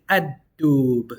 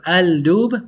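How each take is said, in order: First: Ad-dub slowly, D doubled, no L; right ad-dub. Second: Al-dub with a clear L, rising; wrong al-dub. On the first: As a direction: drag out ad-dub, swallow the lam. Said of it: "we say". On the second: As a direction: sound the L in al-dub. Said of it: "instead of". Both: Shown as a demonstration.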